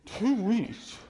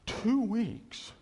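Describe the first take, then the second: No difference in how they are said.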